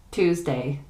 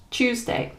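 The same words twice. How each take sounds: First: American "Tuesday" with a plain t; "Tuesday" starting like "too"; American pronunciation. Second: British "Tuesday" with a ch sound; higher, "Tuesday" starting like "choose"; British pronunciation. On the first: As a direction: say "Tuesday" as TOOZ-day. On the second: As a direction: say "Tuesday" as CHOOZ-day. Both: Shown as a demonstration. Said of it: "next to each other to hear the difference".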